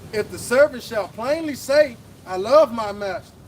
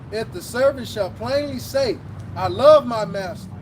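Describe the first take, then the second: The two takes are said the same way.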